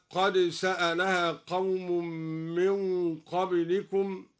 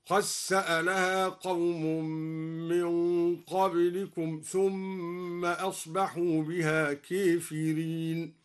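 First: Said in the usual way. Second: قد سألها with the د merged into the س; dal merged into sin. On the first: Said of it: "أدغم الدوري الدال في السين". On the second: Shown as a demonstration. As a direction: say قد سألها as qas-saalaha. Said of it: "أدغم الدوري الدال في السين هكذا". (إدغام الدال في السين في قد سألها)

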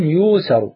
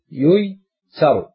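First: يوسر said "yuu-saru", with a long u; ya turned waw. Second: ييسر drawn out as "yuy-saru", split after the y; original passive form. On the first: Teacher gives the grammarians' resulting form, long-u "yuusaru". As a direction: stretch the first vowel of يوسر, no y glide after it. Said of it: "قلبت واوا". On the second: Teacher shows students the underlying form, slow split "yuy-saru". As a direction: say ييسر slowly as two parts, yuy, saru. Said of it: "سنضم أوله". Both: Shown as a demonstration.

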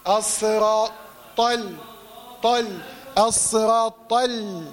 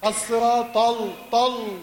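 First: Heavy ط, then clear ل in طل; light lam. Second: طل with a wrongly dark ل, tongue still raised; heavy lam. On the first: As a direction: drop the tongue for a light lam at the end of طل. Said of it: "لا، انزل بقى". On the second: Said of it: "اللام هتطلع مفخمه". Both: Shown as a demonstration.

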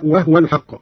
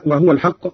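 First: وهو said "wahwa", joined to الحق; silent vowel on the haa. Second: Said in the usual way. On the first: Shown as a demonstration. Teacher demonstrating Qalun's reading, وهو said "wahwa". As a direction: close the h: وهو as "wah-wal". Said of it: "بإسكان الهاء هكذا". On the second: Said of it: "قرأ قالون بإسكان الهاء".

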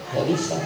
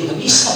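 First: "Nggak bisa" repeated much softer, almost to himself; quiet repeat. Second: Said in the usual way. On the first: Shown as a demonstration. Preacher echoing his own point to the congregation, hushed. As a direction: let "Nggak bisa" fall away in a hushed echo.

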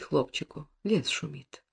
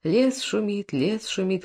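First: Fading to a whisper; whispered lullaby. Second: Gentle crooning, quietly; lullaby voice; soft lullaby. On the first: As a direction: let the lullaby die into a whisper. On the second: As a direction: croon him to sleep. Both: A narrator's reading. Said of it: "баюкает".

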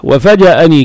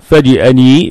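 First: وفجأني with an a in the middle syllable; fatha on jim. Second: فجأني with an i in the middle syllable; kasra on jim. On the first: Teacher gives the common people's form, with fatha. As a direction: say وفجأني as "wa-faja'ani", short a after the j. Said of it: "تنطق بالفتح". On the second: Teacher gives students the purer form, with kasra. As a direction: say فجأني as "faji'ani", short i after the j. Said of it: "بالكسر أفصح". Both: Shown as a demonstration.

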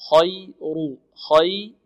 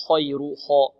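First: خير with lips relaxed on kh, rounded only on ru; correct unrounded kh. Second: خير with pursed lips on the kh; wrong rounded kh. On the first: Teacher modelling خير, unrounded kh. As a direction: keep the kh open in خير. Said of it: "لا نضم الشفتين في الخاء". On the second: Teacher demonstrating the mistake, rounded kh in خير. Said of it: "ولا نقول". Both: Shown as a demonstration.

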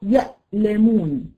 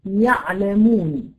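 First: "يألمون" with a glottal stop after ya; teacher's model of hamza in "يألمون"; hamza demonstration. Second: Slow "يعلمون" with a pharyngeal ayn; teacher's slow model of ع in "يعلمون"; ayn demonstration. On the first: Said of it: "تقول لي كلمة يألمون". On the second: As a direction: draw out "يعلمون", ayn from mid-throat. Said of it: "ثم تقول يعلمون". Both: Shown as a demonstration.

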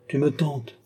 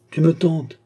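First: Said in the usual way. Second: "tentes" cried out higher and louder; exclaiming. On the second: A narrator's reading. Old master crying out to tempted pupil. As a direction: cry out "tu me tentes". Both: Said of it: "s'écria Altotas".

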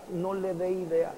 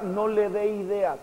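First: "no le dé ideas" said again much softer, fading; quiet repetition. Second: Said in the usual way. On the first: Shown as a demonstration. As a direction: drop to a hushed echo of the warning. Preacher repeats the warning. (repetir "no le dé ideas" en voz baja)

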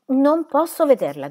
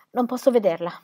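First: Higher, louder panicked refusal. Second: Raised, fearful refusal; distressed refusal. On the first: Cornered squire refusing to see her, loud panic. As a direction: cry it out, cornered. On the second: Squire refusing to meet the widow, distressed. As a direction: back away from it. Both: A narrator's reading.

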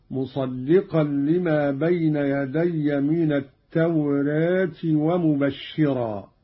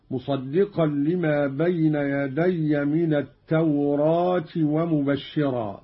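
First: "التوراة" with aa tilted toward e, "tawreet"; slow recitation, lightly fronting the long vowel of "التوراة"; taqlil. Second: "التوراة" with a full open aa, "tawraat"; open fath. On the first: Teacher demonstrating second reading, "التوراة" with taqlil. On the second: Teacher demonstrating first reading, "التوراة" with open aa. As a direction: recite "التوراة" with the long vowel wide open. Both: Shown as a demonstration. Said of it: "بالفتح والتقليل".

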